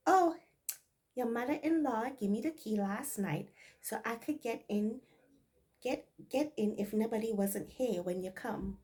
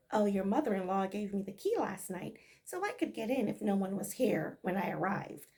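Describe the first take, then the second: First: Light Bajan dialect explanation; easy Barbados speech; Bajan accent. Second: Said in the usual way. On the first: Maid explaining the key in Bajan dialect. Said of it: "this is Bajan dialect". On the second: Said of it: "In plain English".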